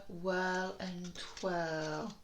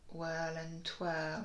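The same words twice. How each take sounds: First: Whirl and twirl drawn out slowly, each sound stretched. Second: Said in the usual way. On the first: Shown as a demonstration. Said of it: "This one's tricky".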